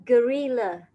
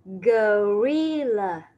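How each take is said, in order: First: Said in the usual way. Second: "gorilla." drawn out very slowly, syllable by syllable: go-ri-lla; teacher slowly models "gorilla." for children. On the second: Shown as a demonstration. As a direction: stretch out each syllable of "gorilla.". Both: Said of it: "một con khác nữa đó là con".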